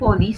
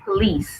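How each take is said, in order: First: The stress is on the first syllable. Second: The stress is on the second syllable. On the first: The speaker calls it wrong. "not police" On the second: The speaker calls it right. "because the stress is on the second"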